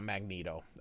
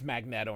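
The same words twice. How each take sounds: First: The middle syllable sounds like 'nee', with a long e. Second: The middle syllable sounds like 'net', as in magnet. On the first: The speaker calls it wrong. "there's no double E's" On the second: The speaker calls it right. "It's a magnet with an O"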